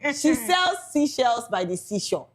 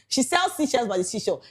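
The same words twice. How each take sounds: First: It is said at a slower pace. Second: It is said at a fast pace.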